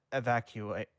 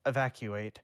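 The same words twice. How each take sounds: The two takes are said the same way.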